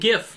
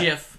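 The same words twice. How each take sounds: First: The word begins with a hard g sound. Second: The word begins with a soft j sound. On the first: The speaker calls it right. "I say it GIF, ... Because it's graphic interchange format" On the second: The speaker calls it wrong. "not ... you don't say graphic, giraffic"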